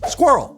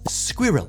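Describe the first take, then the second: First: It is said as one compressed syllable. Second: It is said with two clear syllables. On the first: "in American English, we don't have time for two syllables" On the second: "In Britain, similar to caramel, the word is broken up a bit more sensibly"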